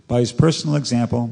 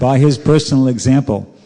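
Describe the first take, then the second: First: It is read at a fast pace. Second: It is read at a slow pace.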